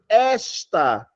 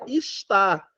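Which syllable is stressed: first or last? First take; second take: first; last. First: The stress is on the first syllable. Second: The stress is on the last syllable. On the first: It is a pronoun pointing to a person. "a sílaba tônica não está no tá" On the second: It is the verb meaning 'is'. "é uma oxítona terminada em A"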